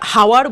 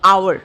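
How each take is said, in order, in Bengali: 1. শব্দটি একটি h ধ্বনি দিয়ে শুরু হয়। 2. শব্দটি একটি স্বরধ্বনি দিয়ে শুরু হয়। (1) "শব্দটা হাওয়ার বলি না আমরা" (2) "আমরা কি বলি আওয়ার"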